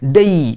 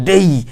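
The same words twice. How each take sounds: Both takes have the same delivery.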